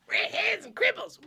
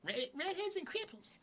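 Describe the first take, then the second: First: Much higher cartoon-brat impression; Eric Cartman. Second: High, quiet cartoon-kid impression; Eric Cartman. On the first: Friend mocking the redhead remark, very high cartoon-brat imitation. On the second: Friend mocking the redhead remark as a cartoon brat, high imitation. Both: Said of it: "a more Eric Cartman-y thing".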